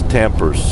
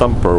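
First: The name is said as 'Tampers'. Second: The name is said as 'Thumper'. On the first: Someone else said the name this way. The speaker calls it wrong. "was Tampers" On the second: This is the dog's real name. The speaker calls it right. "Her pronunciation of Thumper"

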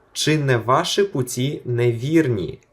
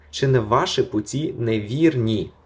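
The two takes are said the same way.

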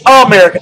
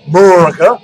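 First: The first vowel is clearly pronounced. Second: The first vowel is dropped, like 'Merica. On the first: The speaker calls it right. "There's an A" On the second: The speaker calls it wrong. "Not M-E-R-I-C"

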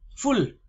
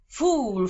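First: The vowel is short and clipped. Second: The vowel is drawn out long. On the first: It means being full after eating. The speaker calls it right. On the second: It sounds like calling oneself a fool. The speaker calls it wrong.

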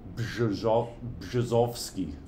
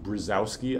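First: The name is said with Polish sounds. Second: The name is said with American English sounds. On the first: "The RZ sounds like SH, so this, and the W sounds like a V. So it's something like Brzozowski" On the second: "this is typically by Americans pronounced Brzozowski"

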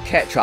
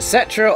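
First: The word begins with a k sound. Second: The word begins with an s sound. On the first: "Is it Cetra or Ketra?" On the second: "Is it Cetra or Ketra?"

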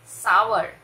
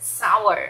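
No difference in how they are said.

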